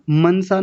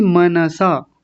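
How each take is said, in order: First: मनसा clipped as मन्सा; wrong मन्सा. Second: मनसा with full न, मन-सा; correct मनसा. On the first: Retold or imitated. Teacher imitates the learned people's error in मनसा. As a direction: drop the vowel after न in मनसा. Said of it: "कुछ लोग बोलते हैं मनसा". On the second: Shown as a demonstration. Teacher corrects the class, मनसा unclipped. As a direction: say मनसा in three syllables. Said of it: "मनसा नहीं मनसा".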